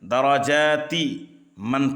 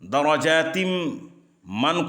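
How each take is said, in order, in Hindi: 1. 'man' से पहले कोई अतिरिक्त 'm' की ध्वनि नहीं आती। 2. 'man' से पहले 'm' की ध्वनि आती है।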